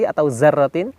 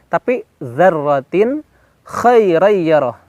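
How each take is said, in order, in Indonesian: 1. Kata ini dimulai dengan bunyi z. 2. Kata ini dimulai dengan bunyi th bersuara.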